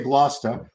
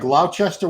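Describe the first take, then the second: First: The word is said in shortened form. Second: The word is read out as spelled. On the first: This is how locals actually say the name. The speaker calls it right. "We say Gloucester" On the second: This is how the written name appears to read. The speaker calls it wrong. "It looks like Gloucester"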